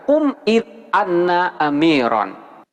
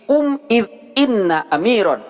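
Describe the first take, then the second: First: The third word begins with an 'a' vowel. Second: The third word begins with an 'i' vowel. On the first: The speaker calls it wrong. "tidak boleh dibaca" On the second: The speaker calls it right. "wajib dibaca kasroh"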